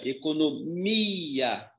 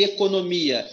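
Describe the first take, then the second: First: Economia with a long, drawn-out MI; stretched stress on MI. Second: Said in the usual way. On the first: Shown as a demonstration. Teacher revealing the strongest syllable, long stressed MI in Economia. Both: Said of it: "a sílaba mais forte é o mi".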